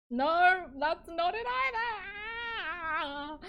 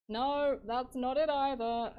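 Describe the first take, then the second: First: Very loud, high, drawn-out wail; exasperated wail. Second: Louder, higher rejection of a failed take; loud frustrated dismissal; exasperated. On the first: Streamer wailing at yet another failed take. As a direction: stretch it into a loud despairing cry. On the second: Streamer rejecting another failed take, exasperated. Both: Real, not acted.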